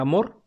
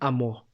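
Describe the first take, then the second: First: The final r is clearly pronounced. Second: The final r is dropped. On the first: The speaker calls it right. "en vez de mencionar" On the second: The speaker calls it wrong. "mencionan ... eliminan las consonantes finales"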